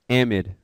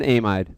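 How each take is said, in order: First: The word is said the usual American way. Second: The word is said the British way. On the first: "we actually pronounce it amide" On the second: "If you're British, then you can call it an amide"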